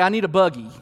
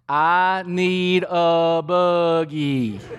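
First: It is said at a normal, quick pace. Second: It is said slowly and drawn out.

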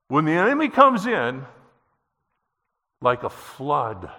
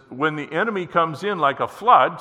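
First: It has a pause after "comes in". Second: It runs on without a pause after "comes in".

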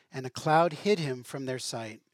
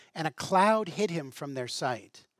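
The two takes are said the same way.

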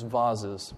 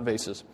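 First: The word is said in a posh, refined way. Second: The word is said in a plain, everyday way. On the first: The objects are treated as precious and grand. "So precious that they probably refer to them as vases" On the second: The objects are treated as ordinary. "not vases"

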